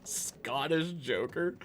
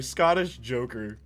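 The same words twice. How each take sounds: First: "Scottish Joker?" drawn out slowly with a rising, disbelieving tune; slow questioning "Scottish Joker?"; incredulous echo. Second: "Scottish Joker." said slowly and firmly with a falling tune; flat deadpan statement. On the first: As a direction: repeat the name slowly as if it can't be serious. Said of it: "We need a Scottish Joker". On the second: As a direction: state the name slowly as a done deal. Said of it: "yo, I'm sorry". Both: Pretend.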